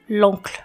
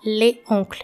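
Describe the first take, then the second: First: The L joins directly onto the vowel of oncle. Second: The article le is said fully before oncle. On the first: The speaker calls it right. "mas l'oncle" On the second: The speaker calls it wrong. "Você não vai falar le oncle"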